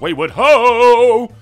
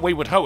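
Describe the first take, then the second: First: It is said excitedly, like an exclamation. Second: It is said flatly, without emphasis.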